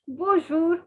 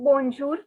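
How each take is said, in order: First: The n is silent, with a nasal vowel. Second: The n is pronounced as a clear consonant. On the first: The speaker calls it right. "The N is silent" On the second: The speaker calls it wrong. "It is not bonjour"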